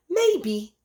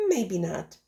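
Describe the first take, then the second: First: "Maybe" lifted high and drawn out; musing maybe. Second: Said in the usual way. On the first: A narrator's reading. Goose answering Spider's jibe, high musing "Maybe". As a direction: float the first "Maybe" up thoughtfully. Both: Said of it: "mused the goose".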